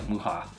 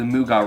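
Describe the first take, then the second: First: The middle consonant is a softer, breathy sound. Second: The middle consonant is a hard g. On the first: The speaker calls it right. "It's probably more like Muja" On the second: The speaker calls it wrong. "that's not how you say geez in Spanish"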